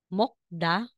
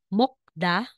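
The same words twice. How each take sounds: Both takes have the same delivery.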